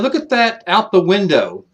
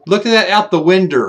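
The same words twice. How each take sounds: First: The word window is said the standard way. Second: The word window is said an old country way. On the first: This is the usual way to say it. "they wouldn't say like hey" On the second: This is how older relatives said it. "They'd say"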